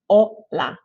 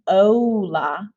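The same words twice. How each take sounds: First: The final vowel stays steady with still lips. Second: The final vowel glides as the lips move. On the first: The speaker calls it right. "it's hola" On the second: The speaker calls it wrong. "not hola"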